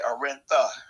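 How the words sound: The consonant before the final vowel is a th. "they speak Castilian Spanish, so they say Arenta, like T H"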